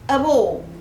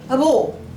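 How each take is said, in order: First: The two words run together like one word. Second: The same.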